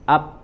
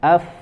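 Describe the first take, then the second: First: Both lips close with no flowing air. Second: Upper teeth touch lower lip with flowing air. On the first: The speaker calls it wrong. "menempelkan kedua bibir ... Yang tidak sudah jelas itu keliru" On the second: The speaker calls it right. "dengan ujung gigi seri atas ... ke bagian perut bibir"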